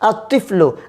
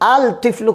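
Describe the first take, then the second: First: The l is silent and the t is doubled. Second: The l is pronounced before the t. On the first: The speaker calls it right. "লেখার মধ্যে আসবে কিন্তু উচ্চারণে আসবে না" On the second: The speaker calls it wrong. "আল তিফলু কোনোদিনও হবে না"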